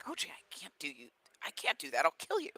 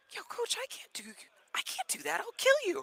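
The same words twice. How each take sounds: First: Worried protest. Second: Very high-pitched mock panic; alarmed protest. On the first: Retold or imitated. Player refusing to lift his coach, worried protest. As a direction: imitate a player balking, pitch leaping on the last words. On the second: Another player asked to lift the coach, alarmed protest. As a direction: imitate a balking player in a squeaky high voice.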